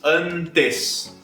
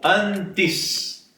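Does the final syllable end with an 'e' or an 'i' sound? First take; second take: e sound; i sound. First: The final syllable ends with a clear 'e' sound. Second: The final syllable ends with an 'i' sound. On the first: The speaker calls it wrong. "Isso é uma pronúncia impossível no Brasil" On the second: The speaker calls it right. "Você vai dizer sempre antes"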